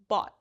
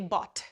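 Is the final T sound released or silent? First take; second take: silent; released. First: The final T is held and not released. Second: The final T is clearly released with air. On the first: The speaker calls it right. "it ends in a silent T" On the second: The speaker calls it wrong. "We don't say"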